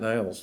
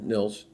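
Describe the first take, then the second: First: The name has a long 'eye' vowel, like Niles. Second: The name has a short 'i' vowel, like Nils. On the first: The speaker calls it wrong. "not Niles Lofgren" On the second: The speaker calls it right. "Nils. Um, common mistake"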